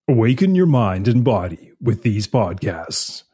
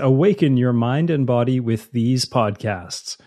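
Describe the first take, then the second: First: It is read in a movie-announcer voice. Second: It is read in a plain speaking voice.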